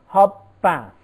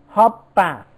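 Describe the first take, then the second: Both takes have the same delivery.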